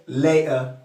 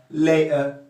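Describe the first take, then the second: Both takes have the same delivery.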